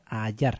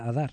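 First: The middle consonant is a y-like sound. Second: The middle consonant is a plain d sound. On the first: The speaker calls it right. "se pronuncia Hallar" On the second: The speaker calls it wrong. "no se pronuncia Adar"

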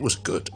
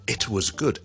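First: The T in 'it' becomes a glottal stop. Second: The T in 'it' is clearly released. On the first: The speaker calls it right. "咁呢個係英式英文好多時候係咁樣讀嘅。" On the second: The speaker calls it wrong. "咁咧就比較咧花時間同埋慢啲同埋論盡少少啦。"

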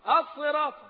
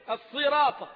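First: The s sound is heavy and emphatic. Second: The s sound is light and plain. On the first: The speaker calls it right. "هي الصراط" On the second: The speaker calls it wrong. "جيت على الصاد المفروض تفخمها، قلت الصراط"

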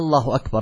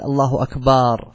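First: The opening vowel of the phrase is lengthened. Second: The vowel after the b sound is lengthened. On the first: "كما لو مد همزة الله أكبر" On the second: "أو مد الباء في قوله الله أكبر"

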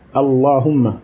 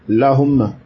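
First: The word starts with a vowel before the l. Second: The word starts directly with an l sound. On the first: It is the standard, widely known form. "il est bon de dire Allahumma" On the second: It is a variant regional form of the word. "on peut dire lahumma kazalika. C'est une lura"

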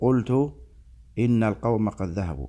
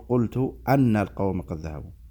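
First: The particle is said with an i vowel: inna. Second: The particle is said with an a vowel: anna. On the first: The speaker calls it right. "بل تكسر الهمزة بعد القول" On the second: The speaker calls it wrong. "لا يصلح أن تقول ... فتح الهمزة"

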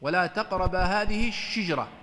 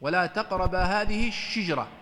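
First: The sh sound is followed by an i vowel. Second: The same.

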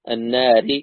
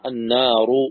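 First: The r is pronounced light and thin. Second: The r is pronounced heavy and thick. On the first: "النار مرققة" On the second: "تكون النار مفخمة"

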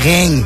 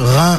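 First: It is said with a southern French accent. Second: It is said with a Parisian French accent. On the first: The speaker calls it wrong. "je disais reins. Et c'était pas très joli apparemment" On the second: The speaker calls it right. "j'ai essayé de dire rein"

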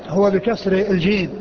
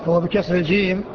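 Both takes have the same delivery.

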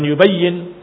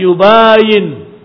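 First: The y sound in the middle is doubled. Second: The a sound after b is long. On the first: It means to explain. The speaker calls it wrong. "bukan yubayin" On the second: It means to differ from. The speaker calls it right. "tapi yubayin"

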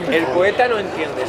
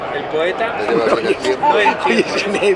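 First: The line is spoken at a faster pace. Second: The line is spoken at a slower pace. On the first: The speaker calls it wrong. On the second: The speaker calls it right.

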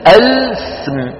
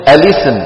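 First: The l has no vowel, clashing with the s. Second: The l carries an i vowel before the s. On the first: Two vowelless consonants are joined together. The speaker calls it wrong. "اللام ساكنة والسين ساكنة، اجتمعها في النطق" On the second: The clash of two vowelless consonants is avoided. The speaker calls it right. "بيكسروا اللام"

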